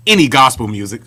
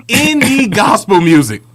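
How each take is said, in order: First: Said in the usual way. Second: Higher, louder, slow, laughing; laughing, drawn-out emphasis on any. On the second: Shown as a demonstration. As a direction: stretch it out through a laugh. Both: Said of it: "repeats the phrase".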